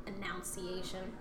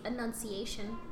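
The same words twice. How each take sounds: First: Slow, softer "Enunciation." with every syllable crisp; careful enunciation. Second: Said in the usual way. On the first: Shown as a demonstration. Showing her proper enunciation, slow crisp "Enunciation.". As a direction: pronounce "Enunciation." deliberately and properly. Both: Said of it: "because I have proper enunci".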